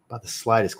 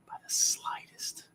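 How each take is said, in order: First: Said in the usual way. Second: Breathy whispered aside, much softer. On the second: Real, not acted. Streamer confirming his fragrance pick to himself, whispered. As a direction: murmur it under your breath.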